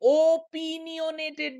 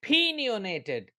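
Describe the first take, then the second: First: It begins with a full, clear 'oh' vowel. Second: It begins with a weak, barely heard vowel. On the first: The speaker calls it wrong. "ये ओपिनियोनेटेड नहीं होगा ओ" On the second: The speaker calls it right. "इसका sound start होगा पिन से"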